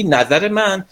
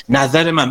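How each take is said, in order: First: Slow, taken-aback "نظر من؟" rising at the end; surprised echo. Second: Said in the usual way. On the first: Retold or imitated. Teacher shows how a friend reacts when suddenly asked, mildly surprised. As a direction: echo "نظر من؟" slowly as if caught off guard. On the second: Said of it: "پس الان مثلاً شرایط".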